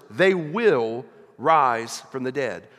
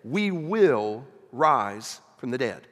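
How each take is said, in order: First: "they" punched and louder, slow and deliberate; stress on THEY. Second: "We" punched, slow and firm; stress on WE. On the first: Preacher explaining to the congregation, stress on "they". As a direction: hit "they" in "they will rise from the dead". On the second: Preacher applying it to the congregation, stress on "We". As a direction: hit "We" in "We will rise from the dead". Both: Shown as a demonstration. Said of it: "In other words".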